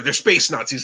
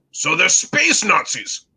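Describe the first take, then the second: First: Said in the usual way. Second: Slow, drawn-out question in a put-on British accent; terrible British accent. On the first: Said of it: "And we're like". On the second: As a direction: query it slowly in mock British English. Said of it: "I will do my terrible British accent".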